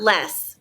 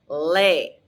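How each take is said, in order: First: The vowel sounds like the one in 'less'. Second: The vowel sounds like the one in 'lay'. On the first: The speaker calls it wrong. "Not less" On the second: The speaker calls it right. "it's pronounced lay"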